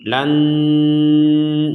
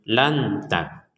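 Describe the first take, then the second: First: The n is fully nasalized through the nose. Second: The n is pronounced fully clear, without nasalization. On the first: "Kalau dibaca dengung seratus persen" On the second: "Kalau dibaca dengan jelas seratus persen"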